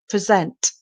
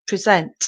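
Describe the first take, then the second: First: The stress is on the second syllable. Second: The stress is on the second syllable.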